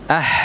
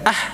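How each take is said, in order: First: The breath flows on through the sound. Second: The breath is cut off abruptly. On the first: The speaker calls it right. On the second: The speaker calls it wrong. "bukan ah"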